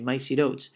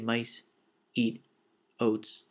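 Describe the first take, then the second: First: The words run together without any pauses. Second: Each word is separated by a short pause. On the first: The speaker calls it right. "we just say" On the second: The speaker calls it wrong. "we don't have pauses. We don't say"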